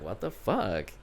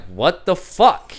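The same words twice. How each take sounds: First: Low, hushed disbelief; softly puzzled, under your breath; quiet bafflement. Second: Loud, drawn-out disbelief; louder bafflement. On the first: Puzzled by Zoe moving her foot away, quiet bafflement. First puzzlement in retold footsie story. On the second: Foot pulled away a second time, louder bafflement. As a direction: draw it out, higher and incredulous. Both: Retold or imitated.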